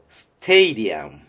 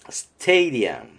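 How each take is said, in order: First: It is said like 'stay-dee-um' with an 'ay'. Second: It is said like 'stay-dee-um' with an 'ay'.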